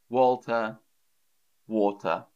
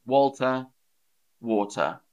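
The two takes are said the same way.

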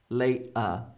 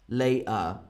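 No difference in how they are said.

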